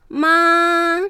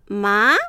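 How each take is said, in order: First: The pitch stays high and level throughout. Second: The pitch rises sharply from start to end. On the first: "第一声、高い音をそのまま平らに伸ばして発音する。" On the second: "第二声、最初は弱く、だんだん強く、勢いよく上げる。"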